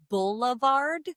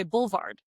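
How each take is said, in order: First: Boulevard drawn out as "BULL-uh-vard"; full three-syllable boulevard. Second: Boulevard shortened to "BULL-vard"; Philly two-syllable boulevard. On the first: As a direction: give boulevard its middle vowel, slowly. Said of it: "we say things instead of boulevard". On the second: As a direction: drop the middle vowel of boulevard. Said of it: "we say boulevard". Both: Shown as a demonstration.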